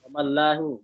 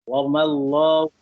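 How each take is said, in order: First: The L sound is thin and flattened. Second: The L sound is heavy and full. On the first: The speaker calls it wrong. "Jangan ... jangan dikepis" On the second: The speaker calls it right. "harus tebal dia"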